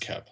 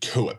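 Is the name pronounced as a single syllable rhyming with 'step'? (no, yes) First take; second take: yes; no. First: The name is pronounced as one syllable, 'Kep'. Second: The name is not pronounced like 'Kep'. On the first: The speaker calls it right. "No, it's Kep. I'm fucking with you" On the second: The speaker calls it wrong. "Let me mispronounce shit how I want to mispronounce"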